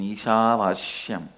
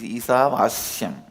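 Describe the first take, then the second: First: The middle consonant is pronounced 'sh'. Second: The middle consonant is pronounced 's'. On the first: It follows the way the speaker's masters said it. "my pronunciation Isha Vashyam is also Padabeta" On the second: It is the actual form of the word. "but actually it is Isha Vashyam"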